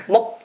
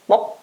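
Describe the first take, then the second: The two takes are said the same way.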